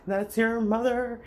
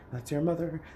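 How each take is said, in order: First: Much higher, louder and slow; mocking refrain. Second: Said in the usual way. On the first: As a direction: drag out the nagging refrain to a peak. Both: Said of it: "everyone wants to say".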